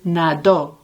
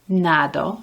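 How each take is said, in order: First: The stress is on the last syllable. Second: The stress is on the first syllable. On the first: He swam, in the past. "the stress of the word is on the last syllable" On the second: I swim, in the present. "the stress of the word is a na"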